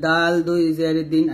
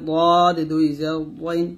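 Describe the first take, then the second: First: DAL দাল said light and thin; light, unthickened D in দাল দুই জের দিন. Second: দদ said heavy and full; heavy emphatic Arabic dad in দদ; thick dad. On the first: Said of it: "তারপরে দাল পাতলা হবে". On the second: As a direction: thicken the opening consonant of দদ. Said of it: "দদ মোটা হবে". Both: Shown as a demonstration.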